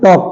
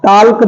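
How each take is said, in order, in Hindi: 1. L की आवाज़ पूरी तरह छोड़ दी जाती है। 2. L की आवाज़ साफ़ बोली जाती है। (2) "टाल्क नहीं"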